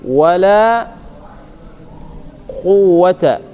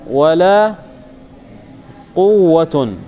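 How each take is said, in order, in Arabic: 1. تنتهي الكلمة الأخيرة بالصوت -a. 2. تنتهي الكلمة الأخيرة بالصوت -un. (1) "إذا فتحت الأولى جاز في الثانية ثلاثة أوجه" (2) "وجاز الرفع"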